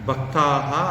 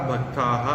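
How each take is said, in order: The two takes are said the same way.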